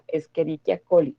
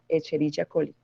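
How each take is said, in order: First: The 'ch' is pronounced as a 'k' sound. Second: The 'ch' is pronounced as a 'ch' sound. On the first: The speaker calls it right. "lo pronunciamos como si fuera una K" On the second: The speaker calls it wrong. "no la Escherichia coli"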